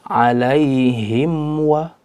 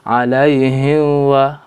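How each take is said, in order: First: The m is pronounced clearly before the w. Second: The m is blurred into the following w. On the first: The speaker calls it right. "maka harus dibaca dengan jelas" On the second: The speaker calls it wrong. "jangan sampai dibaca"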